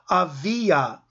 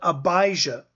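First: The name is said without a 'j' sound. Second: The name is said with a 'j' sound. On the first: This is the original Hebrew form of the name. "the way it would be pronounced in Hebrew" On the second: This is the usual English form of the name. "in English we would call it Abijah"

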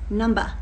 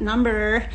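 First: It is said without an American accent. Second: It is said with an American accent. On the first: The speaker calls it right. "it's number" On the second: The speaker calls it wrong. "did I just say that with an American accent? ... It is not number"

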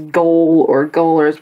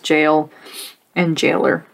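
First: The word begins with a hard g sound. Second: The word begins with a j sound. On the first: The speaker calls it wrong. "I wanted to read it as goal or goalers" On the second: The speaker calls it right. "you just pronounce it as jail and jailer"

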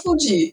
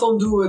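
First: The word is said with Brazilian Portuguese sounds. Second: The word is said with French sounds.

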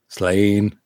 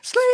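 First: It is said in a normal, lower voice. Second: It is said in a much higher voice.

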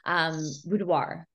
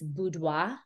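First: It is said with an American pronunciation. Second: It is said with a French pronunciation. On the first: "in the very, Canadian or American way" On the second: "the French way, and it is a French word"

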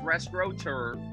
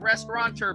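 First: It has no n sound in the middle. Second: It has an extra n sound in the middle. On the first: The speaker calls it right. "It's restaurateur" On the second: The speaker calls it wrong. "It's not restaurateur"

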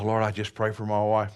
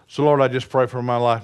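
First: It is said fairly quietly. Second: It is said more loudly.

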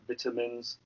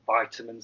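First: It is said with a British pronunciation. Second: It is said with an American pronunciation.

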